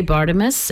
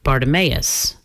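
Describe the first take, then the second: First: "Bartimus" in three syllables, ending in a quick -mus; short pronunciation. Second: "Bartimaeus" with a long MAY before the final -us; long pronunciation. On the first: Radio host showing one way preachers say it, "Bartimus" with short -mus ending. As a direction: say "Bartimus" with no "may" sound, just -ti-mus. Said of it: "sometimes they say Bartimus and sometimes they say". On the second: Radio host showing the other way preachers say it, "Bartimaeus" with MAY-us ending. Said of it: "sometimes they say". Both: Shown as a demonstration.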